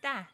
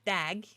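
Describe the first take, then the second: First: No g sound is heard at the end. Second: A g sound is heard at the end. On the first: The speaker calls it right. "it's not pronounced" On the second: The speaker calls it wrong. "instead of"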